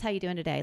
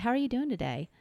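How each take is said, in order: First: It is said quickly, as a casual default. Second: It is said slowly, with genuine interest.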